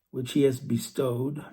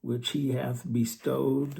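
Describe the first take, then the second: First: Bestowed said louder and pressed; stress on bestowed. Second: Bestowed drawn out slowly and weighted; slow down and lean on bestowed; stress on bestowed. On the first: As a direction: push bestowed out as the key word. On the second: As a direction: which he hath bestowed, slow with bestowed emphasized. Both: Shown as a demonstration. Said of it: "I emphasize the word bestowed".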